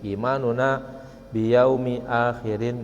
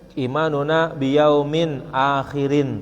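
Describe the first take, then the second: First: Yaumi is said without a final n sound. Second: Yaumin is said with a final n sound. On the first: The tanwin is dropped to fit the poem's meter. "dengan cara membuang tanwin, dibaca dengan biyaumi" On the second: This is the regular grammatical form. "mestinya imanuna bi yaumin akhirin"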